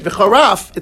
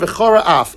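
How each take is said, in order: First: The two words run together as one. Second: The two words are said separately. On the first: The speaker calls it wrong. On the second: The speaker calls it right.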